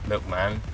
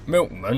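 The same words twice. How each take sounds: First: The last vowel is a clear 'a' sound. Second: The last vowel is a reduced 'uh' sound. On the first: This is the usual way to say it. "as opposed to milkman" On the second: This is how the grandfather says it. "always says milkman"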